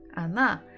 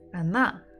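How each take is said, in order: Both takes have the same delivery.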